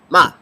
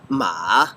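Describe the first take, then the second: First: The syllable is short and clipped. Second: The pitch dips down then comes up. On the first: "the fourth tone is short" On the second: "The third tone makes a dip"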